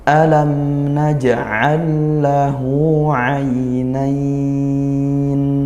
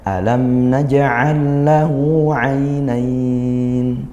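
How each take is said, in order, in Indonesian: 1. Vokal kata terakhir dibaca sangat panjang. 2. Vokal kata terakhir dibaca cukup panjang. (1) "tiga alif seperti itu" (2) "kalau kita sedang ... dua alif"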